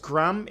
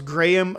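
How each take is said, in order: First: It is said with an American pronunciation. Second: It is said with a non-American pronunciation.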